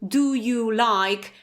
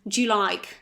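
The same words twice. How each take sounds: First: Every word is said fully and separately. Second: The words are reduced and run together.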